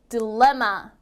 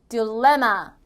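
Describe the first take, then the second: First: The second syllable is clearly stressed. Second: The second syllable is clearly stressed.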